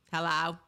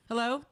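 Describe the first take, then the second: First: Low, clipped client-call hello; husband's boss voice. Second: Said in the usual way. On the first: Retold or imitated. Wife imitating husband answering her call, boss voice. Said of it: "his boss voice or his, his client voice". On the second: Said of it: "It's not, "Hello?".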